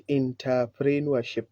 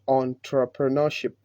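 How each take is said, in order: First: Entrepreneurship as "in-tah-pree-nuer-ship"; the common mistake on entrepreneurship; wrong way. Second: Entrepreneurship as "on-truh-puh-nuh-ship"; the model entrepreneurship; correct pronunciation. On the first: Retold or imitated. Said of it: "Not entrepreneurship". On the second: Shown as a demonstration. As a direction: say entrepreneurship starting "on". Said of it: "but entrepreneurship".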